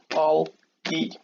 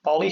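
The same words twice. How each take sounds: First: "bol, E" as two separate beats; split into syllables. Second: Said in the usual way. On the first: Shown as a demonstration. Teacher showing Bolly has two syllables, "bol, E" broken apart. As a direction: say "bol", pause, then "E" alone. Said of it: "Bolly has two syllables". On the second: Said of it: "has two syllables".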